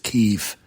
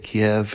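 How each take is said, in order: First: The city name is said the newer, news way. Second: The city name is said the older, familiar way. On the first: This is how it is said on the news. The speaker calls it right. "it's Kyiv" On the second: This is how the speaker has been saying it. The speaker calls it wrong. "I say Kiev"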